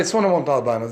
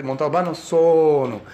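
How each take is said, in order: First: Said in the usual way. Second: "Montalbano sono" in a Sicilian lilt; Sicilian phrasing. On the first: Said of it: "They don't say". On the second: Retold or imitated. Sicilian commissar giving his name, Sicilian lilt. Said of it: "that's the way Sicilians talk".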